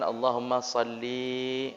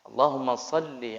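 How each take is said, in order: First: The final vowel of salli is drawn out long. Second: The final vowel of salli is kept short. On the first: It addresses a female. The speaker calls it wrong. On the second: It addresses a male or unspecified one. The speaker calls it right.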